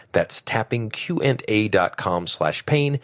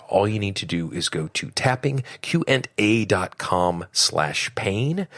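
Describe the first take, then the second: First: Slowly spelling out the web address; slow, clear repeat. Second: Said in the usual way. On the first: Shown as a demonstration. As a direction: say it slower so they catch it.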